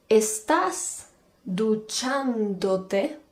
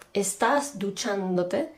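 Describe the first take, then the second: First: Very slow, drawn-out teacher example; slow classroom demo voice; slow model question. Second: Said in the usual way. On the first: Shown as a demonstration. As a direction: spell it out slowly for learners.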